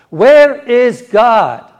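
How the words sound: It is asked in a very stern voice.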